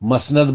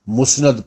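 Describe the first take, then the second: First: The first vowel sounds like 'a'. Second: The first vowel sounds like 'u'. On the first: "मसनद बाज लोग pronounce करते हैं" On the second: "बाज लोग इसे मुस्नद प्रोनाउंस करते हैं"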